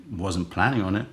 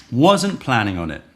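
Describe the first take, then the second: First: Said in the usual way. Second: Wasn't punched louder with a falling tune; louder repeat. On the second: Shown as a demonstration. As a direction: hit Wasn't, then let it drop. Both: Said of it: "To which I say".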